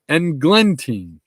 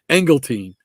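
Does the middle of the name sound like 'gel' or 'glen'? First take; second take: glen; gel. First: The middle of the name sounds like 'glen'. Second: The middle of the name sounds like 'gel'. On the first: The speaker calls it right. "and it's Eng, Englentine" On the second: The speaker calls it wrong. "I always want to say Engeltine"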